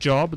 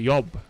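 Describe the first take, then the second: First: It starts with an English J sound. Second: It starts with a Swedish Y-like sound.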